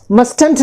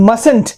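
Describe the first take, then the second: First: Mustn't with the first t sounded, MUST-unt; wrong pronunciation. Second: Mustn't with silent first t, MUSS-unt; correct pronunciation. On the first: Teacher shows what not to say, mustn't mispronounced. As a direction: say "mustn't" as MUST-ent, hitting the middle t. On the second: Teacher corrects the mistake, mustn't pronounced properly. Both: Shown as a demonstration. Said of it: "mustn't नहीं होता है".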